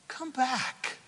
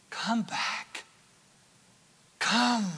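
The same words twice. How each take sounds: First: Called out, then let it drop; pleading call. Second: Breathy whispered plea. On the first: Preacher calling the lost back, pleading call. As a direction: call them home from the pulpit. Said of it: "Come back. (whispered repeat)". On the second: Preacher to straying listeners, hushed whisper. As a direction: whisper it like a secret invitation. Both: Shown as a demonstration.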